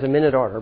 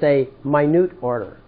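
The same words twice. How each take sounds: First: The stress is on the first syllable of minute. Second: The stress is on the second syllable of minute. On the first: The word refers to a record of time. The speaker calls it wrong. "that's what everybody says" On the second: The word means small. The speaker calls it right. "let's say it correctly. It's a minute order. Minute, the word minute means small"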